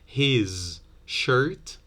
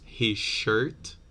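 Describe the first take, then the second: First: 'His' ends with a plain z sound. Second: 'His' ends with a zh sound.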